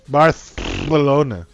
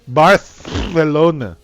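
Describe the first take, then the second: First: The c is said as a th sound. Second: The same.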